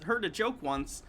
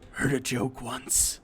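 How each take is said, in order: First: It is said in the speaker's normal voice. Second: It is said in a gravelly Rorschach impression.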